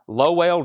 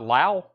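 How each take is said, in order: First: The first vowel sounds like "low". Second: The first vowel sounds like "cow". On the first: The speaker calls it right. "This is pronounced Lowell George" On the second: The speaker calls it wrong. "not Lau"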